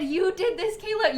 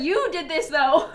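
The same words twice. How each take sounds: First: "did" leaned on, then "Kayla" lifted higher; stress on did. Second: "You" leaned on, "though" louder; stress on you. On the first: Streamer quoting Vicky's chat message, stressing "did". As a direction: punch "did" in "You did this". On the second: Streamer quoting Vicky's chat message, stressing "You". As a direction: hit "You" in "You did this". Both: Retold or imitated. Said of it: "Vicky said".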